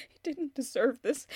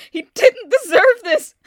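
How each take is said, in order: First: Low, hushed and broken; quiet grief. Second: Sudden loud, higher anguished yell; furious outburst. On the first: Grieving woman alone, quietly about her dead husband. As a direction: murmur it to herself, crushed. Grieving widow, then outburst. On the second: Grieving woman alone, yelling that Martin didn't deserve it. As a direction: scream it out at the unfairness. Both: Acted.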